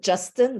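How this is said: The name is pronounced the English way. "like in English"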